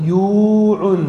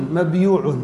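First: "مبيوع" with a loud, long yuu; drawn-out syllables. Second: Said in the usual way. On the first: Shown as a demonstration. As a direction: break after mab in "مبيوع" and hold the yuu. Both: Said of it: "الضمة وقعت على الياء".

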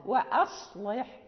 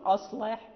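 First: Slow "وأصلح", light hamza before the heavy ṣad; lowered hamza. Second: "أصلح" with a dark, heavy first "a", pitched low; thickened hamza. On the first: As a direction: draw out "وأصلح" keeping its hamza thin. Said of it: "من الاستفال بالهمزة". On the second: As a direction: wrongly let the ṣad thicken the hamza of "أصلح". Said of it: "لا نقول". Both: Shown as a demonstration.

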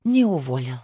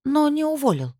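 First: Resigned, sighing echo; lower, let-down admission; sighed. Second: High, pressing question; high-held note, falling at the end; incredulous question. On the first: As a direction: confirm it with a sigh, pitch sinking. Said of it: "вздохнула она". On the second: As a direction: ask it pitched right up, in disbelief. Anxious question before sighed answer. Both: A narrator's reading.

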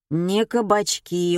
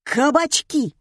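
First: Slow, dejected delivery; glum conclusion. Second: High, loud blurted guess; barked answer. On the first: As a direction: sum up gloomily, dragging the words. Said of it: "уныло резюмировал Коля". (уныло, врастяжку) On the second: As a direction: bark it out triumphantly. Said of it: "гаркнул слушатель". (гаркнуть во всё горло) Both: A narrator's reading.

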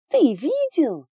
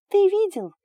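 First: High loud shriek, drawn out. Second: High, loud shriek. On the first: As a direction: shriek it again, longer. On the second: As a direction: shriek it, much higher. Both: A narrator's reading. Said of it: "визжала Далия".

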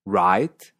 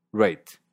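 First: American "write". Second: "rate", ei vowel, slow; Canadian write. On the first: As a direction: open ai in "write". ("write" estadounidense) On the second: ("write" que suena a "rate") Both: Shown as a demonstration. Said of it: "suena rate".

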